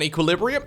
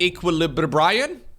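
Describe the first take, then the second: First: The word is pronounced in the usual way. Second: The word is pronounced in a deliberately odd way. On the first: It is the intended pronunciation. The speaker calls it right. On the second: It is a joking mispronunciation. The speaker calls it wrong.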